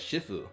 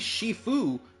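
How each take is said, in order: First: The name is rushed through quickly. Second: The name is drawn out more slowly. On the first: The speaker calls it wrong. "I just don't like the sound of it being pronounced as Shifu" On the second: The speaker calls it right. "Shifu sounds more accurate to say"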